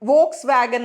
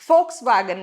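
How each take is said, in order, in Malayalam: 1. ഈ പേര് 'v' ശബ്ദത്തിലാണ് തുടങ്ങുന്നത്. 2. ഈ പേര് 'f' ശബ്ദത്തിലാണ് തുടങ്ങുന്നത്. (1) "വോക്സ് വാഗൻ എന്നാണ് പലപ്പോഴും നമ്മൾ ഇതിനെ പറയാറുള്ളത്" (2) "അവിടെ ഫോ എഫ് ആണ് വരുന്നത്"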